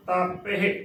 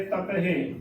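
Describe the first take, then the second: First: ਤਪਹਿ with long open first vowel, "taa-pe-he"; long "taa" starting ਤਪਹਿ; correct pronunciation. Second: ਤਪਹਿ with short first vowel, "ta-pe-he"; wrongly shortened opening vowel in ਤਪਹਿ; common mispronunciation. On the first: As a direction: lengthen the opening aa in ਤਪਹਿ. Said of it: "ਤੱਤੇ ਨੂੰ ਕੰਨਾ ਲੱਗਿਆ ਹੈ". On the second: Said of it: "ਤਪਹਿ ਬੋਲ ਦਿੰਦੀਆਂ ਨੇ". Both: Shown as a demonstration.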